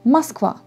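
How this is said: The first vowel sounds like 'a'. This is how people say it in Moscow. "on le prononce comme A"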